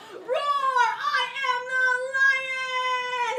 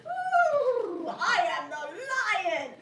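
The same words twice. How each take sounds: First: Loud, high, long-held lion bellow; bigger lion roar. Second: Higher, louder, drawn-out lion howl; storybook lion. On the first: Puppeteer starting bigger to pull the audience in, huge lion roar. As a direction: overplay the lion, stretching the last word. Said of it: "I should start bigger". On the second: Puppeteer playing the sleeping lion for a captive audience, theatrical lion voice. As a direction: play a puppet-show lion. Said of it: "a lion was sleeping soundly in the forest". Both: Acted.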